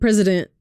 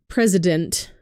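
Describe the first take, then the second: First: The word is said quickly and slurred. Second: The word is said clearly and carefully. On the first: The speaker calls it wrong. "I said president" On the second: The speaker calls it right. "instead of president"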